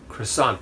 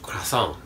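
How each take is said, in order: First: It is said with an English pronunciation. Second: It is said with a French pronunciation. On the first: "that's how we say it in English" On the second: "French croissant"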